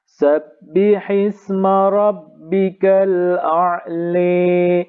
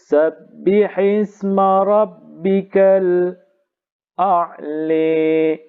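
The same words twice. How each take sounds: First: The glottal stop is fully said with no break. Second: A brief silent break comes before the glottal stop. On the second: "saktah dan imalah"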